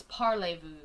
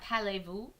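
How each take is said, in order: First: Parlez-vous said properly, with a full French parlé-vou; correcting to a clean French parlez-vous. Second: Parlez-vous read as the chat spelt it, a flat pælevu; sounding out parlez-vous like the typo; misspelt reading. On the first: Fixing the chat's spelling, careful French parlez-vous. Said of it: "but it's parlez-vous". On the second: Reading out the chat's misspelling, parlez-vous sounded wrong. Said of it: "the way that you've spelt that". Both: Shown as a demonstration.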